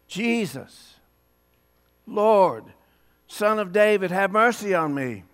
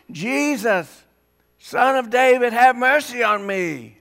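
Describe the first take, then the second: First: A moderate first call to Jesus, raised on Lord; calling out, not yet at full volume; blind man crying out. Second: Higher and louder cry of Jesus, Son of David; loud hollering. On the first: Blind man calling to passing Jesus, moderate cry. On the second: Blind man hollering louder for Jesus to hear, loud cry. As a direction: holler it out over the crowd. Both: Retold or imitated. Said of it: "yeah, louder than that".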